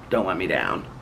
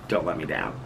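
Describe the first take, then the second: First: Said in the usual way. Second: Giggly, softer echo of the plea; laughing at her own plea; laughing softly. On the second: Real, not acted. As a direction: repeat it much softer through a laugh. Repeats it, laughing.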